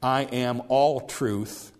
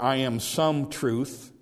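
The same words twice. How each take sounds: First: "all" stressed, slow and falling. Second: "some" drawn out and slow; stress on some. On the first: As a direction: hit "all" as the whole truth. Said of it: "He is saying". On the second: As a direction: lean on "some" as a mere part. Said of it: "he's not saying". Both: Shown as a demonstration.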